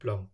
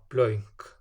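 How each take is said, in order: First: The vowel is a single plain sound. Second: The vowel glides between two vowel sounds. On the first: The speaker calls it wrong. "rather than blönk" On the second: The speaker calls it right. "so we have blönk"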